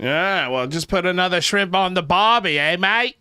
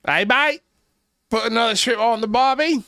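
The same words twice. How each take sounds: First: Put-on high, loud ocker Aussie voice, Australian accent; overdone Australian accent. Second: Put-on even higher, loud Australian accent on "mate" and "barbie"; a strained, overdone Australian accent. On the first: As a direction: ham up the Australian accent on the barbie line. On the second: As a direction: push the Australian accent further, hamming it. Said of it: "I tried".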